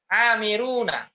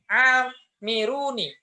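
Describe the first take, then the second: First: The final nun is followed by an a vowel. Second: The final nun is followed by an i vowel. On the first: This is the common reading. "nunnya di fathah" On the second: This is a rare reading used by a few. "Ada yang membaca kasroh"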